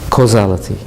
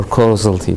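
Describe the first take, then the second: First: "Causality" as koh-ZAL-uh-tee; alternative pronunciation. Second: "causality" as KOH-zul-tee; alternative pronunciation. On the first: Lecturer naming a system property, pronouncing "Causality" as koh-ZAL-uh-tee. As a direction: say "Causality" with a clear, stressed "zal" in the middle. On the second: Lecturer unsure of the word, pronouncing "causality" as KOH-zul-tee. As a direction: say "causality" with the middle reduced, like "causal" plus "tee". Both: Real, not acted. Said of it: "I don't know the correct pronunciation".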